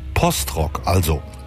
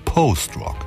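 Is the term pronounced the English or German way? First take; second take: German; English. First: The term is pronounced the German way. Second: The term is pronounced the English way.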